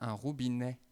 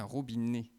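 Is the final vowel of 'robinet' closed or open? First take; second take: open; closed. First: The final vowel is an exaggerated open e sound. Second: The final vowel is a closed e sound. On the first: The speaker calls it right. "On dit bien ... même si j'exagère un petit peu" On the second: The speaker calls it wrong. "je me suis trompé. J'ai dit"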